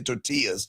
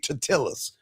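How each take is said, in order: First: It is said the ordinary, everyday way. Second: It is said imitating a movie character's pronunciation. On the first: "I don't say tortillas" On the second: "like because I watched Napoleon Dynamite"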